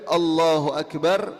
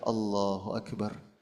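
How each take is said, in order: First: It is said at normal loudness. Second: It is said quietly, with lowered voice.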